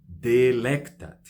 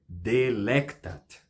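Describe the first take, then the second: First: The stress is on the second syllable. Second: The same.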